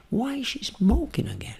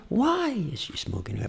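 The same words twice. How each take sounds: First: Soft voice with "smoking" lifted high; stress on smoking. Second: Soft voice with "why" lifted high; stress on why. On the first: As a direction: hit "smoking" with raised pitch, staying hushed. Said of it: "botar entonação no smoking". (voz íntima, entonação forte em "smoking") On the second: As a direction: lean on "why", staying hushed. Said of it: "Por que não smoking? Pode ser". (voz íntima, entonação forte em "why") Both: Shown as a demonstration.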